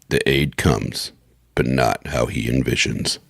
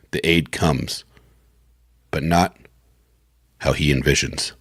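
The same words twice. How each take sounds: First: Low, slow teaser delivery; a little deeper voice. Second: Said in the usual way. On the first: Shown as a demonstration. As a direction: drop deeper for the ominous last line. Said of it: "in a little bit deeper voi".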